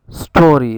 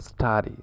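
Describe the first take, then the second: First: STORY with a rounded, stressed "or"; Canadian "or" vowel. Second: STARRY with an open, unrounded "ah"; contrasting "ar" vowel. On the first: Teacher giving the rhyme for sorry, rounded OR in STORY. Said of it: "it rhymes with". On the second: Teacher giving the wrong rhyme, open AR in STARRY. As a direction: say STARRY with a wide "ar". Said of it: "rather than with starry". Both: Shown as a demonstration.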